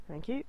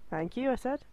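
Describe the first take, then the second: First: Said in the usual way. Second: "I" pressed higher and firmer; indignant repeat with weight on "I"; stress on I. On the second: Real, not acted. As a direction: insist with a pointed "I".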